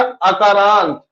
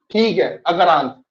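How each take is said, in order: First: Slow, drawn-out term. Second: Said in the usual way. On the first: Shown as a demonstration. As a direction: stretch अकारांत out slowly, syllable by syllable. (अकारांत को धीरे-धीरे खींचकर बोलना) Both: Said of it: "तो ये भी क्या हो गया?".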